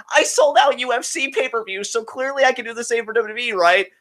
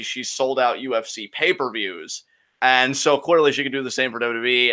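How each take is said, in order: First: High-pitched mocking voice. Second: Said in the usual way. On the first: Host mocking a fan's claim about pay-per-views, mocking. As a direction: parrot the boast in a high, scornful put-on voice. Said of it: "I kinda mockingly said". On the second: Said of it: "somebody mentioned how".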